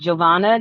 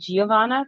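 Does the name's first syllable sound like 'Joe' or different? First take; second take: like Joe; different. First: The first syllable sounds like 'Joe'. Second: The first syllable does not sound like 'Joe'. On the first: The speaker calls it right. "Gio is pronounced Joe" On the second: The speaker calls it wrong.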